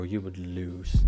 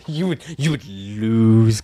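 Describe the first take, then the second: First: Said in the usual way. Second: Slow, louder stress on "lose"; louder, slower insistence on "You would lose"; emphatic. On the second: Real, not acted. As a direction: drive home "you would lose" slowly. Verdict repeated with emphasis.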